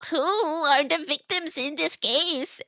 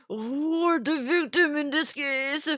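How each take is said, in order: First: It is said in a gremlin-like put-on voice. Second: It is said in a grandma-like put-on voice. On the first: The speaker calls it wrong. "that was more of a gremlin voice" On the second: The speaker calls it right. "That was closer to it"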